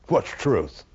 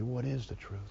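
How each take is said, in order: First: It is asked in a mocking, ridiculing tone. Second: It is asked as a sincere, searching question.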